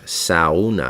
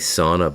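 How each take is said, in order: First: The word is pronounced the Spanish way. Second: The word is pronounced the English way. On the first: "That's how you say it in Spanish" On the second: "It's basically sauna"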